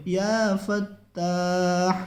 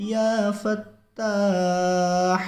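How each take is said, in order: First: یا فتاح slow, with the big ha drawn out at the end; full ha. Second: یا فتاح with a full, breathy big ha at the end. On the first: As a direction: recite یا فتاح ending on a full ha. (یا فتاح بڑی ہا کے ساتھ آہستہ) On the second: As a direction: say یا فتاح ending in a strong throat ha. (یا فتاح میں بڑی ہا پوری نکالیں) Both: Shown as a demonstration. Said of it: "بڑی ہا نکالنی ہے".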